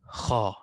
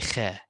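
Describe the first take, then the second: First: The letter is said heavy and full-mouthed. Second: The letter is said light and thin. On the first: The speaker calls it right. "Kha have to be magnified, has to be said like this" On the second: The speaker calls it wrong. "You cannot say kha. Kha is not good"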